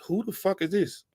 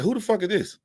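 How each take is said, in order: First: Higher, incredulous who-is-this; baffled outrage. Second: Higher, with FUCK pushed hard; louder, more incredulous retake; baffled outrage. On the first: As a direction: pitch it up in disbelief. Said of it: "I'm like". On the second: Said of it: "I was like". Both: Retold or imitated.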